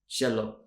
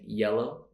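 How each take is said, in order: First: It starts with an SH sound. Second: It starts with a Y sound. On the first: The speaker calls it wrong. "maybe it's more of a sh sound" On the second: The speaker calls it right. "instead of saying yellow"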